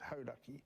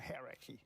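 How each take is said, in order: First: The name is said with a Maori pronunciation. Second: The name is said with an anglicized pronunciation. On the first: The speaker calls it right. "he should be pronouncing it Hauraki" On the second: The speaker calls it wrong. "they'll say they're out on the hierarchy"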